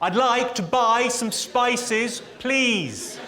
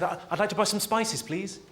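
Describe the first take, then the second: First: It is said noticeably louder. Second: It is said at a normal volume.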